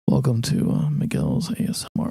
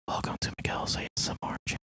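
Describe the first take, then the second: First: It is said in a normal voice. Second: It is said in a whisper.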